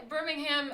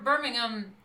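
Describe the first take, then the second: First: Birmingham with a full "ham" ending, Alabama style; Alabama pronunciation. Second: Birmingham with a short "um" ending, English style; UK pronunciation. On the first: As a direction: say Birmingham as BIR-ming-HAM. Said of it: "it's Birmingham". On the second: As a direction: say Birmingham as BIR-ming-um. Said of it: "It's not Bir". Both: Shown as a demonstration.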